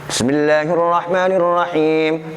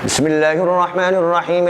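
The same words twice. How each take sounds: First: It is recited at a fast pace. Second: It is recited very quickly. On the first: This is how one recites in long night prayers. "Yang ketiga lebih cepat lagi" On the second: This is for reading through the text for practice. "ini hadar lebih cepat lagi"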